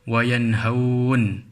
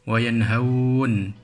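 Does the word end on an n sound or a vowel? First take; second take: n sound; n sound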